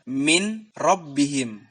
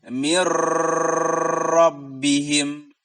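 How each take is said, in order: First: The n is pronounced clearly before the r. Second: The n merges with a held nasal hum. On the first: "Tidak boleh diizharkan" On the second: "Tidak boleh juga didengungkan atau ditahan"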